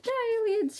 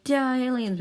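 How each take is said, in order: First: Very high, louder squeal; battle cry in a tiny high voice; squeaky battle cry. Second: Loud, raised battle shout; battle cry. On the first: Bazooka attacking the aliens, squeaky war cry. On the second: Pilot attacking the aliens, loud battle cry. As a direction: yell it at the enemy. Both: Acted.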